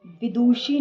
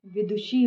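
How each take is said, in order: First: विदुषी with a drawn-out, mistaken vowel; mistaken long vowel. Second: Said in the usual way. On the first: Shown as a demonstration. Teacher showing students an error, mistaken long vowel. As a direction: drag the faulty vowel in विदुषी. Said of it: "नहीं". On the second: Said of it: "होता है".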